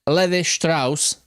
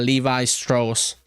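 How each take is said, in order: First: The name is pronounced with German sounds. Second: The name is pronounced with English sounds. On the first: "It's it's German pronunciation" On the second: "English pronunciation is probably"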